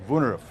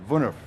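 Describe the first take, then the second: Both takes have the same delivery.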